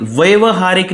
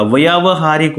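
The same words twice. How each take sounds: First: व्यावहारिक with the first long aa cut short, as vyav-haarik; wrong short-vowel form. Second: व्यावहारिक with a long aa after vy; correct long-vowel form. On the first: Teacher showing students the mistake, व्यावहारिक said with short first a. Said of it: "नहीं होता". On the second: Teacher giving students the right form, व्यावहारिक with long first aa. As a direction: say व्यावहारिक as "vyaa-va-haa-rik", first vowel held long. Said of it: "होता है". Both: Shown as a demonstration.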